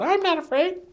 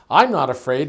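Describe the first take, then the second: First: It is said in a small squeaky voice. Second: It is said in a normal voice.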